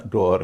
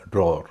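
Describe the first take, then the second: First: ड्रॉअर in two syllables, draw-er; extra vowel. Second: ड्रॉअर merged into one long drawr; one syllable. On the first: Teacher showing a mistake, ड्रॉअर as draw-er. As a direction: add an uh after the aw in ड्रॉअर. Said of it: "न अ का उच्चारण होगा". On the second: Teacher giving the correct form, ड्रॉअर as one-syllable drawr. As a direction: drop both v and uh, saying ड्रॉअर as drawr. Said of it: "इसका उच्चारण है". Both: Shown as a demonstration.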